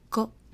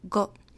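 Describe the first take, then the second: First: The word ends with a cut-off unreleased t stop. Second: The same.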